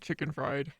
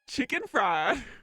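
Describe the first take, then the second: First: It is said in an American accent. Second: It is said in a Southern accent. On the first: "Can I do it in an American accent?" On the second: "it's been a while since I've used my southern accent"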